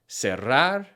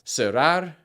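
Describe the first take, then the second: First: The double R is rolled with a trill. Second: The double R is a single tap. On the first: "that rolling R sound" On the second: "pronounce the double R as a single R"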